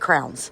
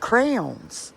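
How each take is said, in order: First: It is said like the word crowns. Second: It is said as cray-ons, two clear syllables. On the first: The speaker calls it wrong. "I say crowns" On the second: The speaker calls it right. "but it is crayon"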